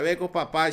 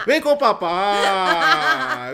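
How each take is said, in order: First: Said in the usual way. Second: Slow, drawn-out daddy call; mock daddy call. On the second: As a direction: call him over like a doting dad. Playful daddy call to Pablo.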